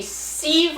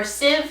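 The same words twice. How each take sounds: First: "sieve" with a long ee, like "seev"; long-ee pronunciation. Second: "sieve" with a short i, like "siv"; short-i pronunciation. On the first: Listing honey gear for viewers, "sieve" said as "seev". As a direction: say "sieve" to rhyme with leave. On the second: Offering viewers the other pronunciation, "sieve" said as "siv". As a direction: say "sieve" to rhyme with give. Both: Shown as a demonstration. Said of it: "however it's pronounced".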